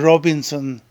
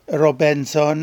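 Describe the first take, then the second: First: The name is said without a French pronunciation. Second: The name is said with a French pronunciation.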